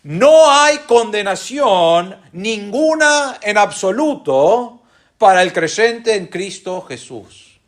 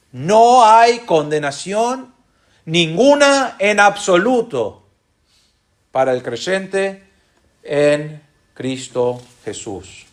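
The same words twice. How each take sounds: First: Slow and weighty, pressing on No; preacher giving the strong translation; emphatic rendering. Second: Slow, with a long pause after condenación, after absoluto and after creyente; No hay condenación, pause, ninguna en absoluto, pause, para el creyente, pause, en Cristo Jesús; emphatic with pauses. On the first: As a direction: stretch the phrase, leaning hard on No. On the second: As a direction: drop each piece in separately and let it land. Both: Shown as a demonstration. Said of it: "podría traducirse de esta manera".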